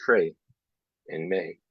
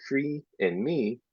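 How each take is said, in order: First: "Frey" and "May" with an ay vowel for free and me; ee turned to ay. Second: Said in the usual way. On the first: Shown as a demonstration. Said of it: "they say". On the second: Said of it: "Instead of saying".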